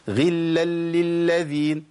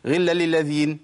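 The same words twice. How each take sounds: First: Very slow غلا للذين with every lam held; all lams shown. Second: Quick غلا للذين with lams merged; wrong, lams dropped. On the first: Teacher slowly models all five lams. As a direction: stretch غلا للذين so each lam sounds. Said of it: "لازم تظهر كل لام". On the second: Teacher shows the mistake of dropping lams. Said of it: "ما أقولش". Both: Shown as a demonstration.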